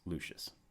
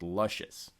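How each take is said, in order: First: The name sounds like the Roman name Lucius. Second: The name sounds like the word luscious. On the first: The speaker calls it right. "confirmed for me that it is actually pronounced Lucius" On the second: The speaker calls it wrong. "had a sneaking suspicion that it was actually pronounced Luscious"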